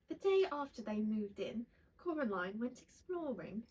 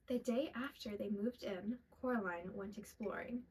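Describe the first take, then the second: First: It is read in a put-on British accent. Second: It is read in the speaker's ordinary accent.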